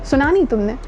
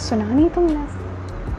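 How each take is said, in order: First: The voice sounds plain and neutral. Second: The voice sounds soft and romantic. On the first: "बहुत normal" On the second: "romantic होके बोले"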